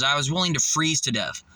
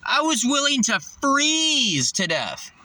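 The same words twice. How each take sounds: First: Said in the usual way. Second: Higher and slow, leaning on every word of "I was willing to freeze to death"; slow and drive each word home; slow emphatic repeat. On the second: Shown as a demonstration. To the viewer, insisting on his sacrifice, slow and emphatic. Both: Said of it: "repeated with more weight".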